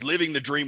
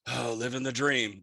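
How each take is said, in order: First: It is said with excitement and happiness. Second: It is said in a worn-out, weary way.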